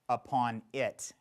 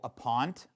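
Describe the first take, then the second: First: Both words are said fully with the vowel. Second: The words merge into one, dropping the vowel.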